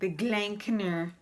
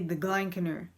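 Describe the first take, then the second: First: It is said in a nasal, put-on accent. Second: It is said in a plain, normal voice. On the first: "with a Canadian accent ... with like a nasal voice" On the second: "usually you'd say the Glenkner"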